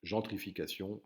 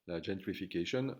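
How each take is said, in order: First: "gentrification" in standard French, nasal "gen" and "-sion" ending; "gentrification" à la française; French pronunciation. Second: "gentrification" with an English accent; English-style pronunciation. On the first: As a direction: correct yourself with the French "gentrification". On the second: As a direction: say "gentrification" like an English word, "jen-tri-fi-ka-shun". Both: Shown as a demonstration. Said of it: "pour ceux qui trouvent que j'ai un mauvais accent".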